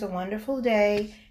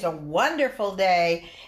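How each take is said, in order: First: The pitch stays level with little energy. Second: The pitch moves up and down with energy. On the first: The speaker calls it wrong. "Here am I with no inflection" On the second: The speaker calls it right. "that's inflection"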